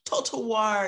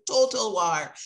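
First: Said in the usual way. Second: Put-on a louder, light Jamaican accent on "Total war.". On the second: Quoting a Jamaican scholar, light Jamaican accent. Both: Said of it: "in his Jamaican accent".

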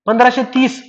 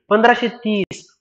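First: Said in the usual way. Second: Slow, deliberate repeat of पंधराशे तीस. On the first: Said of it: "समुद्राच्या पाण्यात speed किती?". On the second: Shown as a demonstration. Teacher repeating the answer to students, slow and deliberate. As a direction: spell out पंधराशे तीस slowly so it sticks. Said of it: "ध्वनीची speed किती?".

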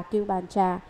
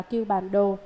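First: "Trà" in place of "Đồ"; chanters' reading ending in "Trà"; common misreading Trà. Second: "Đồ" as the last word, falling tone; proper reading ending in "Đồ"; correct reading Đồ. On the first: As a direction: say "Cưu Bàn Trà", ending on Trà. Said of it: "những người tụng chú đều đọc là". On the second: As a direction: say "Cưu Bàn Đồ", ending on Đồ. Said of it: "phải đọc là". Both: Shown as a demonstration.

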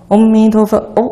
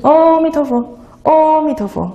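First: Chanted 阿弥陀佛 with 哦 passed over quickly; contained chant, no lingering on 哦. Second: 阿弥陀佛 with a long, high first syllable 哦; wrong-way chant stretching the opening 哦; drawn-out opening 哦. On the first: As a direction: keep 哦 brief and closed, running straight through the chant. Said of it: "哦，是很快的". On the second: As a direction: linger high on the first sound, then rush 弥陀佛. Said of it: "就不是". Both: Shown as a demonstration.

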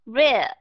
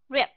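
First: "Rip" drawn out long and loud, like "rib"; long vowel. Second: "rip" with a very short vowel. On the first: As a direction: stretch the vowel of "Rip" before a b. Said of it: "từ nào đọc dài". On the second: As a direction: cut "rip" short on closed lips. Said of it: "từ nào đọc ngắn". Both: Shown as a demonstration.

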